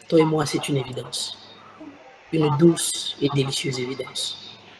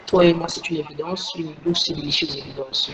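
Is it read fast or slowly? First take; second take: slowly; fast. First: It is read very slowly. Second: It is read deliberately fast.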